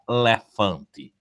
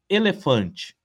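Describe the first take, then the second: First: It is said with a Northeastern Brazilian accent. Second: It is said with a Southeastern Brazilian accent.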